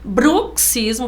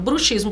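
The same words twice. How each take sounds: First: The x sounds like ks. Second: The x sounds like sh. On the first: It means grinding of the teeth. "ranger dos dentes. ... Do mesmo jeito de táxi" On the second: It means the practice of witchcraft. "prática de bruxaria"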